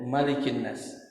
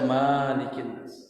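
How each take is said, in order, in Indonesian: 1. Vokal pertama Malikin pendek. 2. Vokal pertama Malikin panjang. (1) "Hanya boleh dibaca pendek" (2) "Tidak dibaca"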